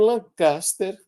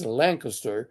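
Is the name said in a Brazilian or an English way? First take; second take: Brazilian; English. First: The name is said with Brazilian Portuguese pronunciation. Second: The name is said with English pronunciation. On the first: This is how people in Brazil know the name. The speaker calls it wrong. "não é assim que se pronuncia o nome em inglês" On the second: This is how the name is said in English, though few in Brazil would understand it. The speaker calls it right. "é assim que se pronuncia o nome em inglês"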